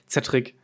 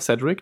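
First: The name is said with German pronunciation. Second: The name is said with English pronunciation. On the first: "oder halt deutsch ausgesprochen" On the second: "Man kann es englisch aussprechen"

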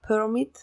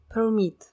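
First: The stress is on the first syllable. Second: The stress is on the second syllable. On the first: It is used as a noun. "разрешение" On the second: It is used as a verb. "разрешать"

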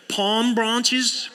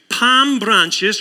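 First: It is said in an American accent. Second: It is said in a non-American accent.

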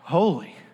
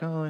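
First: It is said with a gasp, in awe. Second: It is said in a flat, bored way.

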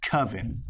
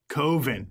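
First: It sounds like a witches' coven. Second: It does not sound like a witches' coven. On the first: The speaker calls it wrong. "like a witch's coven" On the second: The speaker calls it right. "Coven, not coven"

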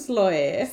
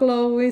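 First: The name begins with an S sound. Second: The name begins with a K sound. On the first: The speaker calls it wrong. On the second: The speaker calls it right.

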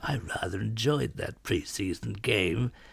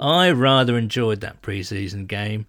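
First: It is said in a put-on lordly voice. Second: It is said in his normal voice.

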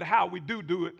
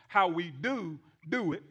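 First: It is said at a normal, quicker pace. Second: It is said slowly, with careful emphasis.

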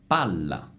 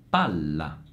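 The two takes are said the same way.

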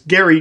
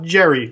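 First: The name begins with a hard g sound. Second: The name begins with a j sound. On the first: The speaker calls it right. "whose name is Gary" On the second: The speaker calls it wrong. "not Jerry, like it's often pronounced"

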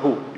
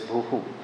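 First: The word ends plainly on the vowel 'u'. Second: The word ends with an echoed 'hu' sound. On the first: The speaker calls it wrong. "It's not bhu" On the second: The speaker calls it right. "it is bhuhu"

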